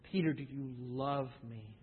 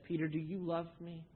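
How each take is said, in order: First: Softer and lower still; the last, gentlest asking; tender question. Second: Soft, gentle asking; tender question. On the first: Jesus to Peter the third time, low and soft. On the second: Jesus to Peter on the shore, gently asking. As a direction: ask him softly, the first time. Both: Acted.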